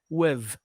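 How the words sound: The word ends with a v sound. The speaker calls it wrong. "Weave with the V sound. ... People in London say with"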